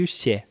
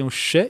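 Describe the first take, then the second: First: "xé" with a softened, palatal sh; soft sh sound. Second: "xê" with a plain hushing sh; hard sh sound. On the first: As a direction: glide from sh into an open "ye" on "xé". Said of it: "são dois tipos de falar". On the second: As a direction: say "xê" as Portuguese sh plus a short vowel. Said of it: "a gente tem o xê". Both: Shown as a demonstration.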